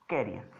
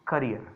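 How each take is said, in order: First: "कैरियर" with an open first vowel, /keɾijəɾ/; कैरियर said as keh-ree-yer. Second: "करियर" with a short first vowel, /kəɾijəɾ/; करियर said as kuh-ree-yer. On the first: Teacher demonstrating carrier pronunciation, low and clear. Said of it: "और एक word है". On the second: Teacher demonstrating career pronunciation to the class. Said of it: "एक और बहुत अच्छा सा word है". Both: Shown as a demonstration.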